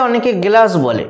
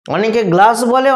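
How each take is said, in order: First: গ্লাস with an extra e between g and l; inserted vowel. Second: Said in the usual way. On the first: Shown as a demonstration. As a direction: say গ্লাস as "ge-las". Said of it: "মাঝখানেতে একটা একার নিয়ে চলে এসেছে". (গ্লাস-এ গ-এর পরে বাড়তি এ-কার) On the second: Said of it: "গ আর লয়ের মাঝখানেতে কোনো স্বরবর্ণ".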